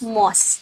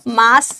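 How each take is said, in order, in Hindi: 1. स्वर एक गोल 'aw' ध्वनि है। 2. स्वर एक खुली 'ah' ध्वनि है। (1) "इसको मॉस बोला जाता है" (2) "मास नहीं"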